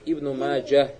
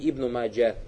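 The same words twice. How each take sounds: First: The name ends with an audible h sound. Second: The name ends on a plain vowel. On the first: The speaker calls it right. "Обязательно говорит Ибн Маджа. Гебуку произносить" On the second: The speaker calls it wrong. "а не Ибн Маджа"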